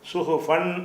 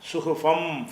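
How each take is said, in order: First: The word ends with a clear n sound. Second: The word ends with an m sound. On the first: The speaker calls it wrong. "சுஹு ஃபன் முத்தஹரான்னு படிக்காமல்" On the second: The speaker calls it right. "சுஹு ஃபம் ஃபம் இம்மா படிச்சிடணும்"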